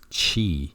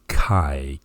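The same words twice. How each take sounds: First: The word begins with a ch sound. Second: The word begins with a k sound. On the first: The speaker calls it wrong. "it may even be tempting to pronounce this as chi" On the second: The speaker calls it right. "the correct pronunciation is chi, K I"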